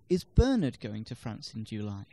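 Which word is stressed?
Bernard. The stress falls on the word Bernard. It questions who is going. "No, Zoe is"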